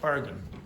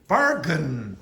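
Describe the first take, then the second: First: The weak part is pronounced quietly and quickly. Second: The weak part is pronounced strongly and fully. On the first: The speaker calls it right. "You go bargain. Okay, it's very, very s- quiet and quick" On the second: The speaker calls it wrong. "you wouldn't say bargain"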